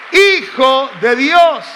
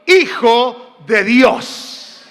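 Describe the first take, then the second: First: Hijo de Dios said slowly, falling to a firm close. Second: Hijo de Dios stretched very slowly, voice rising at the end; drawn out, rising. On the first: Pastor proclaiming the title to the church, slow and falling. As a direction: land Hijo de Dios like a declaration. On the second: Pastor coaxing the congregation to answer, slow rising drawl. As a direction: hold out each word of Hijo de Dios like a question. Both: Acted.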